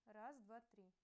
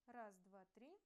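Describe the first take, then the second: Both takes have the same delivery.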